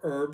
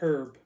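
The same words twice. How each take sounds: First: The h at the start is silent. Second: The h at the start is sounded.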